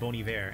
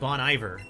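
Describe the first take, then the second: First: The name is said with a French-style pronunciation. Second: The name is said with a Texan English pronunciation. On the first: This is the proper way, but it feels pretentious. "it feels like I'm putting on airs by calling it Bon Iver" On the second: This is how the speaker casually said it for years. "I always called them Bon Iver because I live in Texas"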